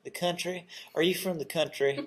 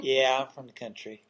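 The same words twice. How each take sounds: First: Lightly put-on North Carolina twang, rising in mock surprise; North Carolina accent. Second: Light North Carolina twang, proud answer; North Carolina accent. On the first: Host jokes how North Carolina folks would ask, light North Carolina accent. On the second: Retold or imitated. Host answers his own question, mild North Carolina accent. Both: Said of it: "that's my North Carolina accent coming out".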